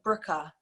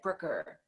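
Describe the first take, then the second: First: The name is said in a London accent. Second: The name is said in an American accent. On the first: "how do you say it in in, in a London accent?" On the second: "someone American would say like Brooker"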